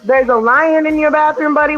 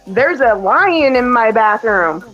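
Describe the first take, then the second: First: Higher-pitched parental echo, as a question; retold questioning echo. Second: Lightly voiced small child, drawn out slowly; slow, mild imitation of an imaginative kid; retold child. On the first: Mother checks son's imagined lion story, higher questioning echo. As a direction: play along, querying the child's claim. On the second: Son tells mother of the lion he imagines, retold as a slow child. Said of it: "He goes".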